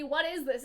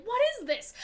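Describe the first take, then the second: First: Said in the usual way. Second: "What is this?" pitched higher, stunned; mock shock. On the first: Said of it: "not a reaction of, like, literally". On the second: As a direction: say it like he's seeing a war coming. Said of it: "It's not a reaction of".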